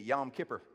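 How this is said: It is said in an East Tennessee accent.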